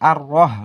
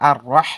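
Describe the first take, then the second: First: The h is a plain, light breath sound. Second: The h is a heavy, strong throat sound. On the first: The speaker calls it wrong. "এখানে কিন্তু আর রহ বললে হবে না" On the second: The speaker calls it right. "বড় হা বলতে হবে"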